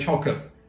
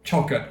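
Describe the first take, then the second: First: It is said in a Cockney accent. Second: The same.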